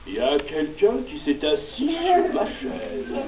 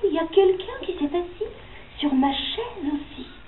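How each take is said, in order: First: It is said in a big deep voice. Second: It is said in a gentle soft voice.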